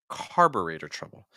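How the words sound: The stress falls on the first word. The speaker calls it right. "They say carburetor trouble"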